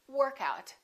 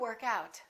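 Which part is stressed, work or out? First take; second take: work; out. First: The stress is on the first part, work. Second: The stress is on the second part, out. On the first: It is a noun meaning an exercise session. "we emphasize the first part" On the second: It is a verb meaning to exercise. "we stress the second element"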